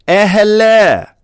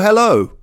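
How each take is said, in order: First: The greeting is said in an exaggerated, very posh way. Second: The greeting is said in a plain, everyday way. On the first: "That's a very posh way of saying, oh, hello" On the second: "when two people meet each other, they might say, oh, hello"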